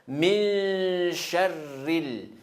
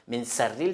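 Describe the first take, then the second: First: The second word begins with a sh sound. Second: The second word begins with a plain s sound. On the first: The speaker calls it right. "C'est ça le shin" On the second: The speaker calls it wrong. "Min sarril, c'est faux"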